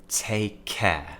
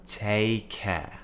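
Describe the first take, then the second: Both takes have the same delivery.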